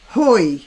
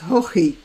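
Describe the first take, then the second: First: The name is a single syllable, rhyming with boy. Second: The name has two syllables with a throaty middle sound. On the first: "the English ... pronounce this Hoy" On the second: "in Ireland it might be pronounced Hochi"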